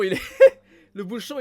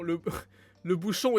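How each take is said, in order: First: Bursting out laughing, much louder; real loud giggle at the cap. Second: Said in the usual way. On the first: Real, not acted. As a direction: laugh through the words le bouchon. Cracks up over the bottle cap.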